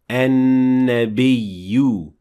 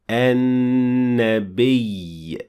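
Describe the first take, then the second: First: It ends with a final u vowel. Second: It ends on a doubled ya without vowel. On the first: The speaker calls it wrong. "not an-nabiyyu" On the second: The speaker calls it right. "That's why we say an-nabiy"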